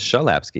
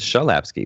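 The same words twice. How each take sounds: First: The name is said with a Polish pronunciation. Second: The name is said with a Polish pronunciation.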